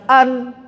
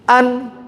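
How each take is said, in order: The two takes are said the same way.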